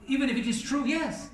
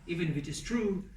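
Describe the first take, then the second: First: Higher, rising imitation of an objector's even if it is true; mock objector. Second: Said in the usual way. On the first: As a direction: lightly voice a questioner pushing back. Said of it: "Somebody said to me". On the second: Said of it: "Talking behind the brother's back".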